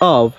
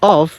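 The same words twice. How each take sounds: First: The word ends with a v sound. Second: The word ends with an f sound. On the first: The speaker calls it right. "এখানে সঠিক উচ্চারণ হবে অফ" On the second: The speaker calls it wrong. "অফ এটি ভুল উচ্চারণ"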